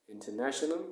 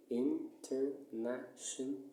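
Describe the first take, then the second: First: Said in the usual way. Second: "international" slowly split, in - ter - na - tion - al; slow "international" with a gap after each syllable. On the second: Shown as a demonstration. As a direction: separate every syllable of "international". Teacher splits word into syllables.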